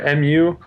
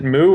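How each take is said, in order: First: It is said as two separate letters. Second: It is said as one word, moo. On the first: "Is it moo or M U?" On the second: "Is it moo or M U?"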